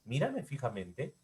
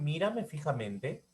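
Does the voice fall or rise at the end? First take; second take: rises; rises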